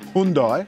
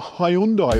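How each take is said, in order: First: It is pronounced in an American way. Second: It is pronounced in a non-American way.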